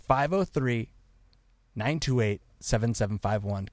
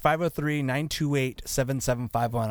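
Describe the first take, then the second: First: The number is read slowly. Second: The number is read at normal speed.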